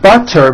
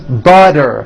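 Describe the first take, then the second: First: The middle consonant is a clear T sound. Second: The middle consonant is a voiced D sound.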